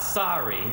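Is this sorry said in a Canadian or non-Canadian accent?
non-Canadian. It is said with a non-Canadian vowel. The speaker calls it wrong. "It's not sorry"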